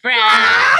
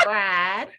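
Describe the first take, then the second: First: Loud full-voiced yell of the word; shouted response. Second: Said in the usual way. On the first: Real, not acted. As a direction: shout it back at full volume. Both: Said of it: "you say fried".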